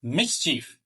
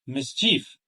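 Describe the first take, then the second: First: Mischief with stress on MIS; correct stress. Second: Mischief rising onto a stressed CHIEF; wrong stress. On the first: Teacher modelling correct word stress, MIS stressed in Mischief. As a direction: lean on the first syllable of Mischief. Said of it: "with the correct stress". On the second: Teacher showing learners the mistake, CHIEF stressed in mischief. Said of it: "and not". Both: Shown as a demonstration.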